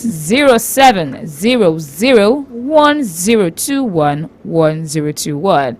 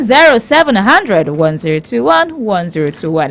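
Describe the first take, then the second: First: The number is read slowly. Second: The number is read quickly.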